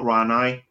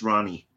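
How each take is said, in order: First: The name is said like 'Ranai'. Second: The name is said like 'Ronnie'. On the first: The speaker calls it wrong. "It's not Ranai" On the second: The speaker calls it right. "It's Ronnie"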